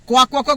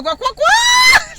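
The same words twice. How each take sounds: First: Loud, chanted quack quack quack; mock quacking. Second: Very high, loud, slow shouted quacks; shrieked quacking. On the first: Children mocking the girl with a chicken dance, loud quacking. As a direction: chant the quacks like teasing kids. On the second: Retold or imitated. Children taunting the girl at lunch, shrieked high quacking. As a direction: shriek the quacks like a mob of kids. Imitating kids' chicken dance.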